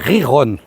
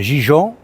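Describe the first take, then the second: First: It starts with a throaty 'h' sound. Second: It starts with a soft 'zh' sound. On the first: The speaker calls it right. "c'est Riron" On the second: The speaker calls it wrong. "c'est pas Gijon"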